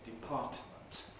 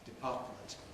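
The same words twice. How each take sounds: First: The middle t is released separately before m. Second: The middle t is released through the nose. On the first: It is an over-articulated, very careful form. "release the alveolar stop separately" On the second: It sounds old-fashioned and very careful. "with an alveolar T nasally released"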